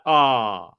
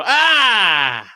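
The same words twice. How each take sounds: First: Low flat ah. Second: Big amazed gasp on entering a casino; shocked gasp. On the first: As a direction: let out a deflated "Ah". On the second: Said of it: "you go". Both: Shown as a demonstration.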